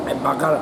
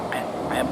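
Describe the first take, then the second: First: Said in the usual way. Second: Breathy whisper, no voice. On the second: Real, not acted. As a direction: hush it under the breath. Whispered then said aloud.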